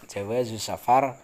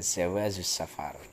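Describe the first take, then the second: First: The first word begins with a j sound. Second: The first word begins with a z sound.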